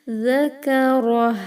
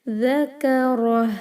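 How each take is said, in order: Both takes have the same delivery.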